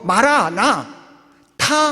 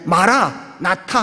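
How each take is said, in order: First: A short break comes before the last syllable. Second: The word is said as one unbroken unit. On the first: The Lord, come. "마라나 타 하면은 오실 예수님이라고" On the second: The Lord has come. "마라나타 하면 오신 예수님이고"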